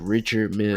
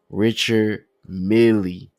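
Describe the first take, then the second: First: The surname ends on a plain l sound. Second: The surname ends with an extra ee sound. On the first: The speaker calls it right. "it's just Richard Mill" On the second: The speaker calls it wrong. "I don't know where the Millie come from"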